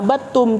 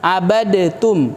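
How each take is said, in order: First: The d sound merges fully into the t. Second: The d sound is pronounced separately before t. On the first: The speaker calls it right. "dibaca abadtum" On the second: The speaker calls it wrong. "tidak dibaca abadtum"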